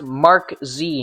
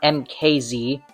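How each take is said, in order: First: It is said as the word Mark plus Z. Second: It is said as three separate spelled letters. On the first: The speaker calls it right. "it's pronounced Mark Z" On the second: The speaker calls it wrong. "not M K Z"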